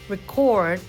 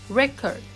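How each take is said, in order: First: The stress is on the second syllable. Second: The stress is on the first syllable. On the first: It is used as a verb. "record for the verb" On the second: It is used as a noun. "record for the noun"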